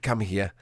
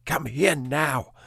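First: Said in the usual way. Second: Stern command. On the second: Retold or imitated. Owner ordering his dog Peanut to come, slow mild mock stern. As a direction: spell out each word like a final warning to a disobedient dog. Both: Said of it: "I was shouting at her".

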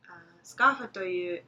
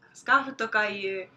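First: Said in the usual way. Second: "scarf toka yu" louder and slower, each word set apart; careful, emphatic correction of the example; corrected, stressed. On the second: Shown as a demonstration. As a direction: correct yourself firmly on "toka".

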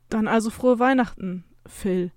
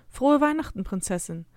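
First: Tentative Christmas greeting; a touch of uncertainty, trying out the name; unsure. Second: Gentle voice. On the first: Mother getting used to her child's new name, unsure. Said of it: "fügt sie unsicher hinzu". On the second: Mother handing her child a present, gentle. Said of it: "mit sanfter Stimme". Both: A narrator's reading.

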